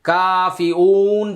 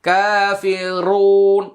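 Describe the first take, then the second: First: The r sound is lost before the last syllable. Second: The r sound is clearly tapped before the last syllable. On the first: The speaker calls it wrong. "কাফি উন যেন না হয়" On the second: The speaker calls it right. "এরকম একটা হবে"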